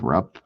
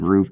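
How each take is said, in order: First: The vowel is short, as in 'cup'. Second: The vowel is long, as in 'food'. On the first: This is how the spelling suggests it. "it does look like Rupp" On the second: This is how the speaker has always said it. "I've always said Roop"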